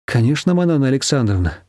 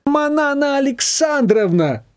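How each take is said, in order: First: Said in the usual way. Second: Much higher, slow outraged echo; indignant. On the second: A narrator's reading. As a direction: throw the formal name back in disgust. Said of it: "возмутилась свекровь".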